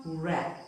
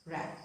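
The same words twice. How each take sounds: First: "rap" with the W sounded, like wrap with a w; wrong pronunciation. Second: "rap" with silent W, starting on R; correct pronunciation. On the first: Teacher showing learners the mistake, "rap" with W voiced. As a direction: start "rap" on an audible W. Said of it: "Not rap, but rap". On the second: Teacher showing learners the correct way, "rap" with W silent. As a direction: say "rap" softly, straight from the R. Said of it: "We pronounce it as rap". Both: Shown as a demonstration.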